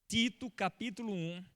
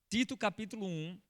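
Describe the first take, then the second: No difference in how they are said.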